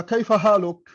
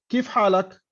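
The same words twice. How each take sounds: First: كيف حالك as "kayfa ḥāluk", with case vowels; formal Arabic. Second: كيف حالك as "kīf ḥālak", without case endings; colloquial Arabic. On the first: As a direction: say كيف حالك in classical style. (نطق كيف حالك بالفصحى "كَيْفَ حالُك") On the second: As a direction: say كيف حالك in everyday dialect. (نطق كيف حالك بالعامية "كِيف حالَك") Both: Shown as a demonstration. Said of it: "العربي لو حكيت لواحد".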